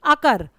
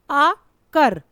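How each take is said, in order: First: Said in the usual way. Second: अ, pause, then कर, each part loud; split into syllables. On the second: Shown as a demonstration. Teacher showing pupils two syllables, अ and कर said apart. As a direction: break अकर into अ and कर with a clear gap. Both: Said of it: "दो, दो syllable आए".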